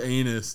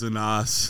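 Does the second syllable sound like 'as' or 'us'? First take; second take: us; as. First: The second syllable sounds like 'us'. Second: The second syllable sounds like 'as'. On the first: The speaker calls it wrong. "His name's Anus" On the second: The speaker calls it right. "It's Anas"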